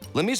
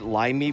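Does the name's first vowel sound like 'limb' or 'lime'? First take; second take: limb; lime. First: The first vowel is short, as in 'limb'. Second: The first vowel is long, as in 'lime'. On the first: The speaker calls it right. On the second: The speaker calls it wrong.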